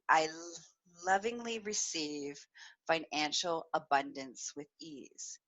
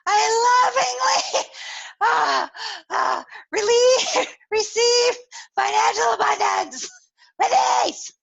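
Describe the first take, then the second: First: It is said in a calm, even voice. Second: It is said breathily, broken up by moans. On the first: "it probably doesn't sound anything like I just said" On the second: "it sounds more like"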